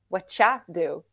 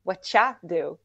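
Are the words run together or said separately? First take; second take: run together; run together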